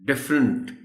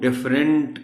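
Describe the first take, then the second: First: The ending sounds like 'unt'. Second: The ending sounds like 'rent'. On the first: The speaker calls it right. "अंट की sound है इसमें" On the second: The speaker calls it wrong. "वो different कह देते हैं"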